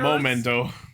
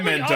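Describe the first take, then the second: First: The first syllable sounds like 'moh'. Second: The first syllable sounds like 'meh'. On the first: The speaker calls it wrong. "not momento" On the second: The speaker calls it right. "it's memento"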